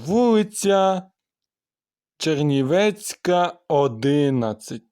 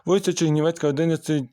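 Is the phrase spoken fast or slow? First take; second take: slow; fast. First: The phrase is spoken very slowly. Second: The phrase is spoken very quickly. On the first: "Це є найповільніше" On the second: "а найшвидше"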